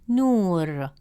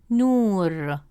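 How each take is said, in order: Both takes have the same delivery.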